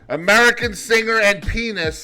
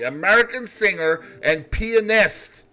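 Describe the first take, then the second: First: The middle vowel and final t are dropped. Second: The middle vowel and final t are clear. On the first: It sounds like a rude word. The speaker calls it wrong. "let's say that differently" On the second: It sounds less dirty. The speaker calls it right. "you gotta pronounce the A and the T in that word. Here we go. Let's say it correctly"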